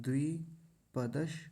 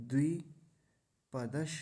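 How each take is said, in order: The two takes are said the same way.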